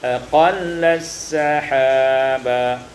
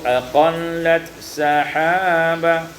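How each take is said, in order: First: The t sound merges into the following s. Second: The t sound is kept before the s.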